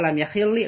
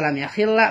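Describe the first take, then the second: First: The doubled l ends with an i vowel. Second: The doubled l ends with an a vowel. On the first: "diharkat kasroh" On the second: "harkatan ku haris patah"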